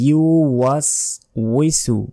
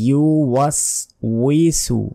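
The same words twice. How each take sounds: The two takes are said the same way.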